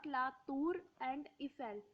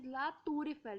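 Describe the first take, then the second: First: Tour and Eiffel are said apart. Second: The R runs straight into Eiffel. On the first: The speaker calls it wrong. "not La Tour and Eiffel" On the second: The speaker calls it right. "we will pronounce R and E together"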